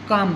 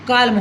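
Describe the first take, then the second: First: The l sound is silent. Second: The l sound is pronounced. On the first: The speaker calls it right. "यहाँ पर हम काम बोलते हैं" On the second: The speaker calls it wrong. "काल्म होना था"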